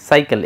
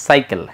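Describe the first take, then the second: Both takes have the same delivery.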